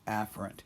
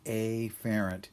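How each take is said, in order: First: The first vowel goes by quick and reduced. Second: The first vowel is drawn out and emphasized. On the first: "usually re- pronounced as afferent" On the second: "I will say afferent to really emphasize the A"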